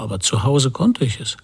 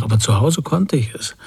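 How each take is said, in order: First: Said in the usual way. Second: Put-on a teacher lightly aping the child's excuse; mocking imitation. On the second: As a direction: mildly mimic the whining excuse. (leicht nachäffend, spöttisch) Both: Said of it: "der Lehrer äffte mich nach".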